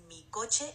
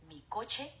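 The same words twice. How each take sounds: The two takes are said the same way.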